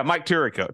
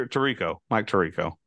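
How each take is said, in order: First: Tirico with the first syllable stressed, TEER-ih-koh; mispronounced name. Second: Tirico stressed on the middle, tuh-REE-koh; corrected pronunciation. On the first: Repeating his slip, Tirico as TEER-ih-koh. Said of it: "he's saying that wrong". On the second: Trying the cohost's correction, Tirico as tuh-REE-koh. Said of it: "It's Tirico". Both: Shown as a demonstration.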